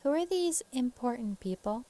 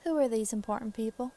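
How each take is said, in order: First: Higher-pitched questioning woman; off-character woman's voice. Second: Southern lady's questioning voice; Southern accent. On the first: Wife questioning the investigator, in the wrong voice. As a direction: miss the Southern lady's voice slightly. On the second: Wife questioning the investigator, Southern accent. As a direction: ask it as a Southern farm wife. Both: Acted. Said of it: "that's not her voice".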